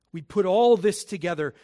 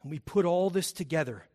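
First: The repeat of "We put all this together" pushed louder; "We put all this together" said louder the second time. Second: Said in the usual way. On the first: Acted. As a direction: hit "We put all this together" again with more force.

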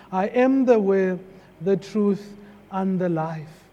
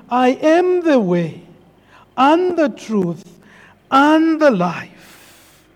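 First: Soft scripture quote. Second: Each phrase slower, the last drawn out; slow solemn quote. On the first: Pastor quoting Jesus to the congregation, softly. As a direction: read the words low and soft. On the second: Pastor proclaiming Jesus' words, slowing solemnly. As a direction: let the verse slow to a solemn close. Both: Retold or imitated.

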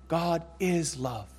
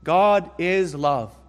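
First: "God is love" slow and softer, hushed repeat; soft echo. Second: "God is love" slow and louder, each word weighted; emphatic declaration. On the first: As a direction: let "God is love" fall away gently. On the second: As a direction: proclaim "God is love" slowly. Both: Shown as a demonstration. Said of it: "is going to go on to say".

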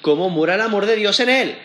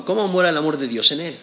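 First: Raised, weighted reading of "¿Cómo mora el amor de Dios en él?"; emphatic scripture quote. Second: Said in the usual way. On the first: Shown as a demonstration.

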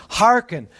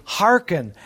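First: "Hearken" cried out high and loud, like an exclamation point; ringing "Hearken" with a falling end; exclaimed. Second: "Hearken" said firmly, one falling stress; a first, measured "Hearken"; steady "Hearken" with a falling end; emphatic call. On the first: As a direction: call out "Hearken" like a summons. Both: Shown as a demonstration. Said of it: "Exclamation point".

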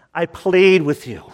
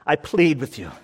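First: "plead" pushed out louder and harder; urgent plea, louder second time. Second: Said in the usual way. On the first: Shown as a demonstration. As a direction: beg them, voice rising in urgency. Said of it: "with urgency, with love, with desperation". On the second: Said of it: "I say this with urgency".

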